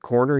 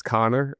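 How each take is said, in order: First: Said in the usual way. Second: "Connor" for corner, r dropped, open ah; imitated Alabama "Connor", KAH-ner; grandfather's pronunciation. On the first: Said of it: "instead of corner". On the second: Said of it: "he says Connor".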